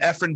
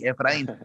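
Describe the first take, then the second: First: The name is pronounced the English way. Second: The name is pronounced the Spanish way.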